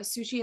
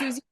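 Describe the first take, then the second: First: The middle consonant is an 'sh' sound. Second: The middle consonant is a 'z' sound. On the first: The speaker calls it wrong. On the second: The speaker calls it right.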